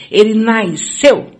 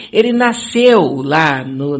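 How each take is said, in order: First: Said in the usual way. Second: Nasceu drawn out slowly and weighted; stress on nasceu. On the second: Shown as a demonstration. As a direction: lean hard on nasceu, slowly. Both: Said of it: "eu vou falar nasceu de propósito".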